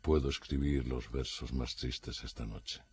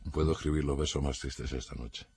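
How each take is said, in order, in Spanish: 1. El verso se lee con un tono triste y expresivo. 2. El verso se lee con un tono plano y neutro. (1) "si se pronuncia con la entonación adecuada, ya rezuma esa tristeza" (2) "mi entonación ha sido más o menos neutra"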